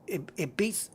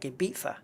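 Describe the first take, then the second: First: The middle consonant is a z sound. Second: The middle consonant is a th sound.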